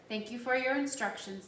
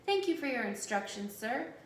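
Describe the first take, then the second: First: Said in the usual way. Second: Mock-polite, slightly raised thanks; sarcastic mimicry. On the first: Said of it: "the voice said". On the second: A narrator's reading. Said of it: "Jonas mimicked in a cruel, sarcastic voice".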